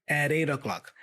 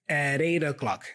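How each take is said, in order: The two takes are said the same way.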